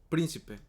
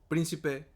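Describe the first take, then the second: Both takes have the same delivery.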